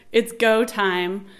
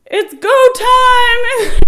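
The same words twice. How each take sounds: First: Mild mock yell, drawn out; retold yell. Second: Long, high, full-volume shout; yelling. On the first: Husband to front desk guy, mild slow mock yell. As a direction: retell a holler at near-normal volume. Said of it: "So Sean's yelling". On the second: Retold or imitated. Husband rushing into maternity ward, re-enacted drawn-out yell. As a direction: holler it drawn out across the room. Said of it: "And Sean's yelling".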